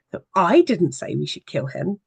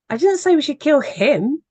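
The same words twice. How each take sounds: First: "I" hit first, the rest said evenly; stress on I. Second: "didn't" punched much higher and louder, rising; stress on DIDN'T. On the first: To a webinar audience, showing how stress changes meaning: weight on "I". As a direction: lean on the word "I" at the start. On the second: To a webinar audience, showing how stress changes meaning: "didn't" punched high and loud. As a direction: slam the word "didn't" with indignant emphasis. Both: Shown as a demonstration. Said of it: "you can put a stress on each of those words".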